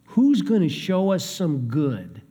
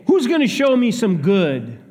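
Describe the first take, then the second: First: Said in the usual way. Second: Louder, higher, pushy demand; demanding challenge. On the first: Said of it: "really more of a demand". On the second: Retold or imitated. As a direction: throw it out as a challenge, not a question. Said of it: "many who say".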